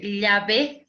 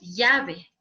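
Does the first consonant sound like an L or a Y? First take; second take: L; Y. First: The first consonant sounds like an L. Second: The first consonant sounds like a Y. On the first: The speaker calls it right. "de decir" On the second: The speaker calls it wrong. "pronuncia la L como si fuera Y"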